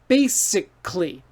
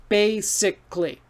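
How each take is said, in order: First: The middle vowel is dropped, giving fewer syllables. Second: The middle vowel is dropped, giving fewer syllables.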